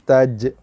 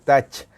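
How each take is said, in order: First: The final j is released with a bouncing echo. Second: The ending sounds flat, like English 'touch'. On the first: The speaker calls it right. "Qalqalah eh jim taj" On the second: The speaker calls it wrong. "bukan touch"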